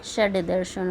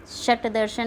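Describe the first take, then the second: First: षड दर्शन with a voiced retroflex d, shad darshan; षड दर्शन, voiced d as the right spelling; correct form said. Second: शट दर्शन with a hard unvoiced t, shat darshan; शट दर्शन, final t sound as the wrong spelling; wrong form shown. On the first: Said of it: "शट दर्शन नहीं होता". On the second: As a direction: say शट with a clipped final t to show the mistake. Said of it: "षड दर्शन होता है". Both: Shown as a demonstration.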